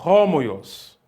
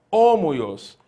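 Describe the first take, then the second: First: Homoios with an h breathed at the start; aspirated. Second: Homoios with no h, starting on the o; without aspiration. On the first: Teacher gives the aspirated Greek reading. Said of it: "eu estou pronunciando". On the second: Teacher contrasts the wrong reading for students. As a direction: open homoios straight on the vowel. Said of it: "ao invés de eu pronunciar". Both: Shown as a demonstration.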